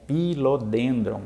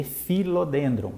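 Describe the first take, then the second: First: Philodendron said slowly with a P sound for PH; wrong, as spelled. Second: Philodendron with PH said as F, fi-lo-DEN-dron; correct pronunciation. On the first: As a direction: read Philodendron letter by letter, P then H. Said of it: "mas se lê philodendron". (Philodendron devagar com som de P, como se escreve) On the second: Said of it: "o P H tem som de F". (philodendron com PH som de F, pronúncia correta) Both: Shown as a demonstration.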